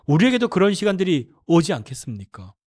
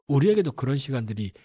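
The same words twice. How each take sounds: First: Emphatic appeal. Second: Said in the usual way. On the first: Shown as a demonstration. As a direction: drive "우리에게도" home to the congregation.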